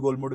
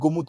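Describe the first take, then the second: First: An L sound is heard in the middle. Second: No L sound is heard in the middle. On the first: The speaker calls it wrong. "जैसे मैं गोलमुड गोलमुड करता हूँ, तो गोलमुड नहीं" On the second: The speaker calls it right. "Actual में गोमुद गोमुद कहते हैं उसको। गोमुद एल साइलेंट है।"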